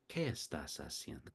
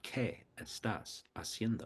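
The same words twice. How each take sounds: First: The words flow together without breaks. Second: The words are said separately, with breaks. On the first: The speaker calls it right. "Feel how it flows together" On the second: The speaker calls it wrong. "It's not"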